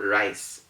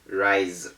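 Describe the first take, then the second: First: The final consonant is a hissing s sound. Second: The final consonant is a buzzing z sound. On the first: The speaker calls it wrong. "is not rise" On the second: The speaker calls it right. "It is rise"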